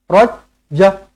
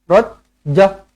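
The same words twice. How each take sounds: No difference in how they are said.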